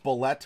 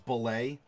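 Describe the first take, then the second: First: The word ends with a hard T sound. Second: The word ends in a lay sound, no T. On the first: "it's bullet with a hard T" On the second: "To some, it's belay"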